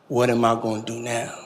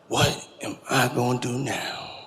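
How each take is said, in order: First: It is said at normal speed. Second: It is said slowly and deliberately.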